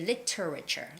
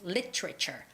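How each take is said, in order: First: The middle T is a crisp, hard T. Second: The same.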